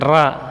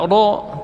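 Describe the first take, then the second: First: The ra is light and thin. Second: The ra vowel leans toward o. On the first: "tidak boleh juga dibaca tipis, bukan ra" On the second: "Ra tidak boleh cenderung ke o"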